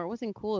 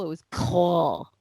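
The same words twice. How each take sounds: First: Said in the usual way. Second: "cool" with a short, darker vowel, like "kull"; low, slow "cool" pronounced "kull". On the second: Shown as a demonstration. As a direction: stretch out "cool" slowly, sounding like "kull". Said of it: "Yeah, cool. K U L L".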